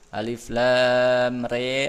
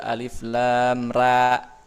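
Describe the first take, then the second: First: The last vowel is bent toward an e sound. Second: The last vowel is an open a sound. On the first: "ada yang re imalah itu yang re" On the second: "ada yang ra"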